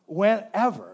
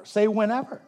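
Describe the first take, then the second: First: Said in the usual way. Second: Call-and-response cue; prompting the congregation. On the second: Shown as a demonstration. Pastor to congregation, cueing them to repeat the word. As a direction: ask them to echo it back.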